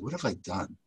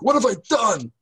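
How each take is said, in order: First: It is said in a calm, thoughtful way. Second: It is said in horror.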